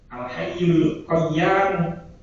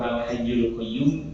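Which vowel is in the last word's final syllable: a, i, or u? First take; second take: a; u. First: The last word ends with a long a vowel. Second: The last word ends with a u vowel. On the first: This is a reading attributed to an early caliph. "Qaf ya alif mim" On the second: This is the commonly used reading. "iku sing umum"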